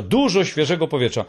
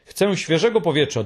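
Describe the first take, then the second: First: Dużo pressed harder than the rest of the line; dużo said with a firm push on the first syllable; stress on dużo. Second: Said in the usual way. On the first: A narrator's reading. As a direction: lean into dużo as if insisting. The hemulen repeats the phrase with emphasis.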